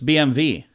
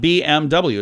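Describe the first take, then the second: First: The last letter is said with a V sound. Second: The last letter is said with a W sound. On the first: The speaker calls it right. "it's B M V" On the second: The speaker calls it wrong. "not B M W"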